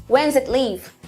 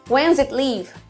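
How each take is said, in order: No difference in how they are said.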